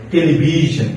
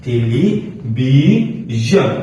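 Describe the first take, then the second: First: টেলিভিশন in one go, ending "zhon"; whole-word model. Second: টেলিভিশন very slowly as "teli - bi - zhon"; syllable-by-syllable demo. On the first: (টেলিভিশন একটানে) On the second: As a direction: break টেলিভিশন into parts, stretching each. (টেলিভিশন ভেঙে ভেঙে, খুব ধীরে) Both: Shown as a demonstration. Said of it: "উদাহরণটা দেখেন".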